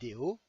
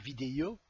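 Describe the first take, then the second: First: It is said with a neutral French pronunciation. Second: It is said with a trace of foreign accent. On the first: The speaker calls it right. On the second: The speaker calls it wrong.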